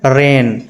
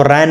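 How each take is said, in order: First: "रेन" with a long closed e, like rain; ए vowel. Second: "रैन" with an open ae, like ran; mispronounced with ऐ. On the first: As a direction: hold a pure ay in "रेन". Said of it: "तो इसको क्या पढ़ेंगे?". ("रेन" में लंबा ए) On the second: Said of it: "इसको रैन नहीं पढ़ेंगे". ("रैन" में खुला ऐ) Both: Shown as a demonstration.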